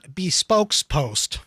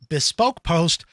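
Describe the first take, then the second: First: Bespoke is said with an s at the end. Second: Bespoke is said without an s at the end. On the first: The speaker calls it wrong. "not Bespokes Post. ... My wife mispronounces it" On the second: The speaker calls it right. "This is called Bespoke Post"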